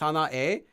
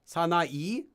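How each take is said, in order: First: The final vowel is an 'eh' sound. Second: The final vowel is an 'ee' sound. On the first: It is altered to sound cool in a song. "but he says 사나에" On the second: This is the standard form of the word. "when the word is 사나이"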